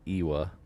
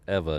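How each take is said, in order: First: The middle consonant is a W sound. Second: The middle consonant is a V sound. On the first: The speaker calls it wrong. "not Iwa" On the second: The speaker calls it right. "W's are pronounced like V's"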